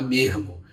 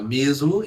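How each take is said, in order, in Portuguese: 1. O som do meio é parecido com um r. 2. O som do meio é um s simples. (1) "Ele vai trocar esse S por um R" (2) "ao invés de falar mesmo"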